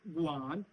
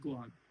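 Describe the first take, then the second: First: The pitch dips down and comes back up. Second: The pitch stays level and flat. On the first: "अगर आप इसके ऊपर वी है आ" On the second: "गुआन with flat tone is"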